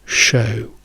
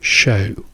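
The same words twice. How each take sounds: Both takes have the same delivery.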